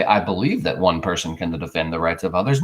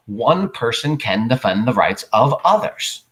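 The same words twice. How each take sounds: First: Said in the usual way. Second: One person can defend the rights of others, slow and certain; deliberate, confident declaration; firm statement of fact. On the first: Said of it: "So don't say". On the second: Shown as a demonstration. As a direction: state it slowly as fact, no hedging. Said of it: "say it as a statement of fact".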